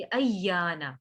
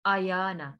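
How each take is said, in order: First: अय्याना with short "a" run into a doubled y; correct joined reading. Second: आयाना with a long first "aa" and single y; wrong unjoined reading. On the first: Teacher correcting the mistake, अय्याना with a doubled y. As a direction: join hamza to a double y in अय्याना. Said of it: "हमजा को या के साथ मिलाएंगे". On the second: Teacher showing the mistake, आयाना with long "aa", single y. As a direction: say आयाना without doubling the y. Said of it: "इसको ऐसे नहीं पढ़ना". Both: Shown as a demonstration.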